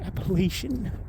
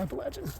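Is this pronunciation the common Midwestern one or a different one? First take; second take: Midwestern; different. First: It is said the common Midwestern way. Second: It is said a different, non-Midwestern way. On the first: The speaker calls it wrong. "Here in the Midwest, everyone says" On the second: The speaker calls it right. "but I'm pretty sure it's"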